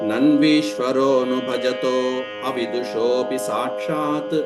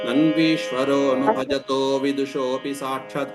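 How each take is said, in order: First: A clear 'a' is sounded before 'vidushopi'. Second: The 'a' before 'vidushopi' merges and disappears. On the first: "విడదీసినప్పుడు ఆ అనేటువంటిది పలకాలి" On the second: "కలిపేసి చదివినప్పుడు"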